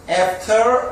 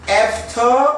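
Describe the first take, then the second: The two takes are said the same way.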